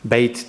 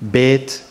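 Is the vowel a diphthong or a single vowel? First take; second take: diphthong; single vowel. First: The vowel is a gliding diphthong. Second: The vowel is a single steady vowel. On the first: This is the original form of the word. "the AY, the diphthong" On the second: This is a colloquial regional form. "gets monophthongized in colloquials"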